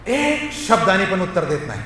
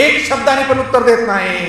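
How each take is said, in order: First: Said in the usual way. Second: "एक शब्दाने" pitched high for emphasis; raised, insistent delivery on "एक शब्दाने"; emphatic repetition. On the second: Real, not acted. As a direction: lean hard on "एक शब्दाने". Verse repeated for emphasis.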